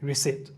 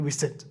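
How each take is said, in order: Both takes have the same delivery.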